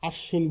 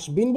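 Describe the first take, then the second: First: The b is silent and the sh is doubled. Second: The b sound is clearly pronounced. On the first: The speaker calls it right. "আশ্বিন বলি" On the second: The speaker calls it wrong. "আসবিন বলি না"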